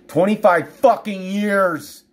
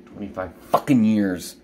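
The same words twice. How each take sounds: First: High, slow, drawn-out anger; real exasperated outburst; angry outburst. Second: Low, held-in bitterness; real exasperation, kept down; bitter exasperation. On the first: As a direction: stretch each word out, pitched up in anger. Repeats the years, escalating in anger. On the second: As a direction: say it lower, bitterly holding it in. Venting over twenty-five years of pain. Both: Real, not acted.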